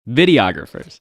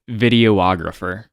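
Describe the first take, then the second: First: The O after 'video' is dropped. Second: The O after 'video' is clearly pronounced. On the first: The speaker calls it right. "It's photographers, videographers" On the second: The speaker calls it wrong. "You say videographer. Video, like, you don't need to say the O part"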